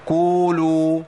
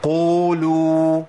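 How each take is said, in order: First: قولوا said as "kuu-luu", with a front k; long, loud "kuuluu" for قولوا, the faulty light k; qaf turned kaf. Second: قولوا as "quu-luu", q from the back of the tongue; very slow, loud قولوا with a heavy qaf; true deep qaf. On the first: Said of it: "بيبدلها بكاف مضمومة". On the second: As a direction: model a deep, full q in قولوا. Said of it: "بالقاف يا شيخ". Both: Shown as a demonstration.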